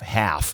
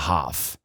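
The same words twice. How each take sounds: First: It is said in an American accent. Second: It is said in a British accent. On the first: "O americano ia falar isso aqui half" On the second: "mas o britânico fala half"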